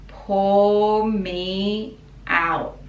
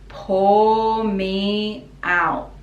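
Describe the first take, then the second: No difference in how they are said.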